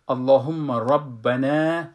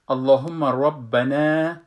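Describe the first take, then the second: Both takes have the same delivery.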